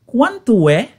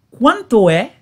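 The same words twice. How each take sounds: The two takes are said the same way.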